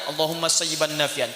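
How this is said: It is said in a relaxed, offhand way. The words are only a request, without inner feeling. The speaker calls it wrong. "cuman santai aja"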